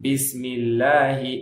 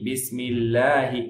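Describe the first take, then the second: Both takes have the same delivery.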